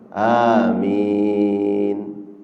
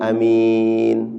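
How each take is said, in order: First: The first vowel is drawn out long. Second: The first vowel is said short. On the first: It asks God to grant the prayer. The speaker calls it right. "maka makmum menjawab amin" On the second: It means a trustworthy person. The speaker calls it wrong. "bukan amin"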